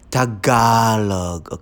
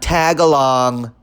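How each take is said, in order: First: The word ends in a plain 'log' sound. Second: The word ends in a 'long' sound. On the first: The speaker calls it right. "So it's Tagalog" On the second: The speaker calls it wrong. "not tagalong"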